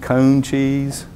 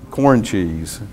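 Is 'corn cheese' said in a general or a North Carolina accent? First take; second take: North Carolina; general. First: It is said in a rural North Carolina accent. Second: It is said in a general, non-Southern accent.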